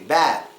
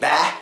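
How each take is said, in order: First: The vowel is held long before the final consonant. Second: The final consonant is dropped entirely. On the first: The speaker calls it right. "You hold out the A sound basically" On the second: The speaker calls it wrong. "not really pronounce the last letter"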